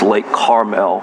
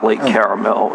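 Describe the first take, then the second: First: The name is said with two syllables. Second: The name is said with three syllables. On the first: The speaker calls it right. "It's Lake Carmel" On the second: The speaker calls it wrong. "not Lake Caramel"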